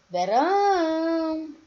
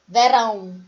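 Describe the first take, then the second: First: "Verão" with RÃO sung high and held; sing-song stretch. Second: Said in the usual way. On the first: Shown as a demonstration. Teacher showing where Verão is stressed, sing-song stretch. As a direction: chant "Verão", drawing out the final RÃO. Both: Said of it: "foi mais prolongado".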